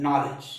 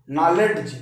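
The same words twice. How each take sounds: First: नॉलेज as "naw-lej", no D sound; silent-D pronunciation. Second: नॉलेज with a hard D sounded before the J; wrong d pronunciation. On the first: Teacher answers how it is said, नॉलेज with silent D. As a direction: drop the D in नॉलेज, going straight to J. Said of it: "इसको आप क्या बोलते हैं?". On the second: Teacher shows students the incorrect reading, नॉलेज with audible D. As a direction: sound the ड in नॉलेज, like "naw-led-j". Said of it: "ये डी का उच्चारण ड नहीं पढ़ा जा रहा है, अशुद्ध होगा". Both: Shown as a demonstration.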